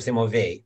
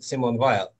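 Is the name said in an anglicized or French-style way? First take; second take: French-style; anglicized. First: The name is said with a French-style pronunciation. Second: The name is said with an anglicized pronunciation. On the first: The speaker calls it right. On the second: The speaker calls it wrong.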